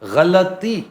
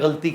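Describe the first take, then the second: First: A vowel is heard after the L sound. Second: No vowel is heard after the L sound. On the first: The speaker calls it right. "लाम के ऊपर हरकत है" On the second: The speaker calls it wrong. "लेकिन पंजाब में गलती कह"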